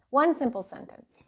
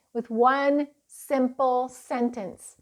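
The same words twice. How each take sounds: First: Said in the usual way. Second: "one simple sentence" said slowly, each word weighted; slow emphasis. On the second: Shown as a demonstration. Teaching parents the point, slow and stressed.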